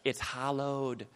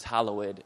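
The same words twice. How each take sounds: First: Hallowed said flat, as two syllables; a lazy two-syllable hallowed; wrong hallowed. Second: Hallowed in three full syllables, hal-low-ed; correct hallowed. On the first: Preacher mocking the congregation's careless hallowed. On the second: Preacher correcting the congregation's hallowed. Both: Shown as a demonstration. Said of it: "No, it's hallowed".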